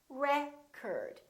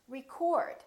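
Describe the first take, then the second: First: The stress is on the first syllable. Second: The stress is on the second syllable. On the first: It is used as a noun. "if it's a noun, ... The first syllable is stressed" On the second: It is used as a verb. "If it's a verb, ... It's prolonged and it's stressed"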